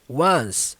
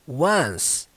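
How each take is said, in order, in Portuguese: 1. Ela soa como a palavra 'one' mais s. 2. Ela soa como a palavra 'one' mais s.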